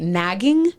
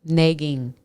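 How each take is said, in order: First: Nagging with the "a" of "cat", asked as a question; trying it the standard way. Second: Nagging said with the vowel of "neg", Minnesota style; Minnesota accent. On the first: Shown as a demonstration. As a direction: standard nagging, rising and unsure. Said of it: "how do you say it?". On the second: Real, not acted. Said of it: "It's my Minnesota accent".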